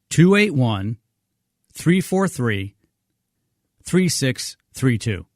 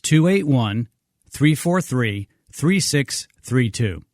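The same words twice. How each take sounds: First: It is read a little more slowly. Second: It is read at a normal pace.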